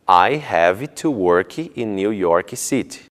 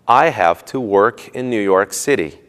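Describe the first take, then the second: First: An extra 'ee' vowel follows final consonants. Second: Words end cleanly without any added vowel sounds.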